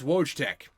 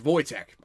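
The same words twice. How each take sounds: First: The name is given an English-style pronunciation. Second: The name is given a Polish-style pronunciation. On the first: The speaker calls it wrong. "You may know him as Wojtek. That's not how you pronounce it" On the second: The speaker calls it right. "It's it's Wojtek"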